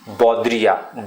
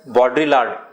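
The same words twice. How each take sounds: First: It is said with a French pronunciation. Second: It is said with a non-French, English-like pronunciation. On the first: "in French it is pronounced as Baudrillard" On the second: "if you pronounce it as Baudrillard"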